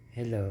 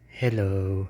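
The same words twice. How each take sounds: First: Distant, softer hello; far from the phone. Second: Close-up hello; close to the phone. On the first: Testing the phone from far away, distant hello. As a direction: say it away from the mic. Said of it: "Medyo ilalayo ko, magsasalita ako". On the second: Testing the phone up close, close-miked hello. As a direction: lean into the phone. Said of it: "Tapos lalapit ko". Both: Shown as a demonstration.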